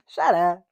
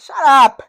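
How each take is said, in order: First: Laughing shut up. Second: Sudden loud cutoff. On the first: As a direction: Shut up said through a laugh, louder. Laughs at her own line. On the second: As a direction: shut up barked much louder, higher. Cuts herself off mid-quote. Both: Real, not acted.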